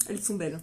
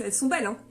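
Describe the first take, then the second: First: Low, quiet echo of "Elles sont belles"; soft repeat. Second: Said in the usual way. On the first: Shown as a demonstration. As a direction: murmur "Elles sont belles" back to herself. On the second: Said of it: "Mes boucles".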